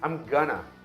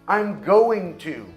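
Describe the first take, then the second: First: The words 'going to' are reduced to 'gonna'. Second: The words 'going to' are pronounced in full.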